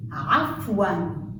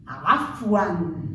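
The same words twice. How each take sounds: First: Afwan repeated slowly, stretched ain; Arabic pronunciation. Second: Afwan with a choked ain start; Arabic pronunciation. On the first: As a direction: Afwan said again, drawn out. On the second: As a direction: Afwan said low, throaty ain. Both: Shown as a demonstration. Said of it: "examples on the letter Ain".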